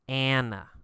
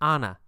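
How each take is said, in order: First: Anna is said with an American pronunciation. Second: Anna is said with a non-American pronunciation.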